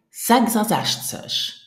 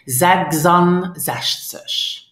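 First: "Sechsundsechzig" in one run, N dropped, higher pitched; without pause. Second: Slow "sechsundsechzig" with the n of und sounded; "sechsundsechzig" drawn out, N left in; incorrect pronunciation. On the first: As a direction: link "Sechsundsechzig" as zegza-zeshtsesh. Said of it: "And now without pause". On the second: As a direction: spell out "sechsundsechzig" part by part, keeping the N. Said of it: "But that's not correct". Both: Shown as a demonstration.

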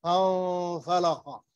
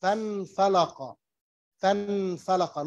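First: فانفلق with the noon hidden into the f, nasalised; فانفلق with ikhfa, no clear n sound. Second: فانفلق with the noon fully sounded as n; فانفلق pronounced with a distinct n; wrong, clear noon. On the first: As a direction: say فانفلق gliding the n into the f with a nasal hum. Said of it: "I will say". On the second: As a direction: say فانفلق with a clear, open n before the f. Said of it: "I will not say". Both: Shown as a demonstration.

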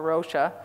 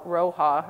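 First: "Rocha" with a sh sound in the middle; alternative name pronunciation. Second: "Roja" with a breathy h in the middle; attempted name pronunciation. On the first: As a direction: try "Rocha" with the ch said as sh. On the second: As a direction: try "Roja" with the j said as h. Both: Shown as a demonstration. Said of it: "I will not pronounce his name right".

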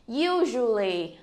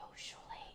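First: Said in the usual way. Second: "Usually" whispered, breath only. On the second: Shown as a demonstration. Teacher whispers "Usually" as a soft echo. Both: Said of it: "nhớ phát âm cuối".

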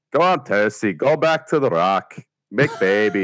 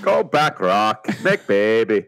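First: A lightly put-on Northern English accent, imitating Sean Bean; a weak Sean Bean impression in a Northern accent; bad Sean Bean. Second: A lightly put-on Northern English accent, imitating Sean Bean; Sean Bean again. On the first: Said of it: "Sean Bean impression where he goes like". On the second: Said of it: "it's how he says it".

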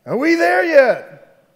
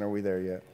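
First: Put-on long, slow, whiny kid yell, much higher. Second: Said in the usual way. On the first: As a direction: drag it out like a fed-up kid. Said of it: "somebody else would yell out". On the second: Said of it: "we'd be asking".

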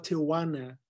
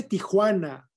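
First: "Tijuana" as American tee-uh-WAH-nuh; anglicized pronunciation. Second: Said in the usual way. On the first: Shown as a demonstration. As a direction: say "Tijuana" without the Spanish j sound. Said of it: "no Tijuana". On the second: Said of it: "Se dice Tijuana".

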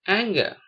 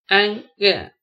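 First: Said in the usual way. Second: "anger" split as an, ger; syllable by syllable. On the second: Shown as a demonstration. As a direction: pause between the two syllables of "anger". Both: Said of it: "spell the word".

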